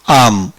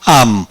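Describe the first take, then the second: The two takes are said the same way.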